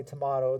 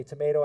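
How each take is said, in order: First: "tomato" said as tuh-MAH-toh; "tomato" with the middle vowel of "father"; broad-A tomato. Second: "tomato" said as tuh-MAY-toh; "tomato" with the middle rhyming with "day"; long-A tomato. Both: Shown as a demonstration. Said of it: "different ways people pronounce that".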